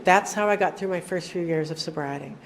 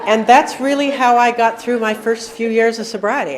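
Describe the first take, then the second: First: Said in the usual way. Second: Louder, pressing every word; emphatic. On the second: Real, not acted. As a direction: say it like a hard-won truth. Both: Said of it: "and I'm not kidding".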